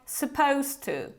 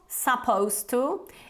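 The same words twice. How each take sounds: First: The words are reduced and run together. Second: Each sound of 'supposed to' is pronounced fully. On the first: The speaker calls it right. "it's more like supposed to" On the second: The speaker calls it wrong. "it's not supposed to"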